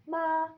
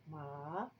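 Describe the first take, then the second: First: "ma" high, level and loud; first tone. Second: "ma" starting low and sweeping up; second tone. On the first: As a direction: hold "ma" flat on a high note. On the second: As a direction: raise "ma" like a question. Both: Shown as a demonstration. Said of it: "those are totally different words".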